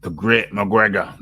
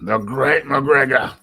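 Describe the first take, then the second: First: Said in the usual way. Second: Drawn-out, raised mock reverence; mock grandiose. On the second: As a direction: proclaim the title slowly, lifting the pitch. Grander repeat of mock title.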